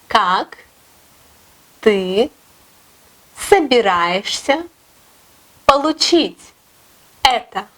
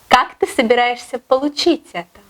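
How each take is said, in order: First: It is said more slowly. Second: It is said at normal speed.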